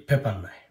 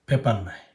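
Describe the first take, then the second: Both takes have the same delivery.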